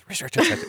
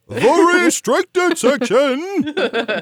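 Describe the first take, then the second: First: It is said quickly and softly under the breath. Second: It is said loudly, like a grand proclamation. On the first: "very hard to say quickly and under your breath" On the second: "without just like proclaiming it"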